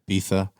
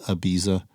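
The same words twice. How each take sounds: First: It is said with a Spanish lisped 'th' sound. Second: It is said with an English 'z' sound. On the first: "I like how you have the, the lisp going with the uh, the Spanish accent" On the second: "or as the rest of the world calls it"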